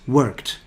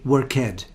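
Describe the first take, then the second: First: The ending is just a t consonant. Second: The ending is said as an extra syllable. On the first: The speaker calls it right. "there's no ed because you don't pronounce the E" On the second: The speaker calls it wrong. "some students make a mistake and say worked"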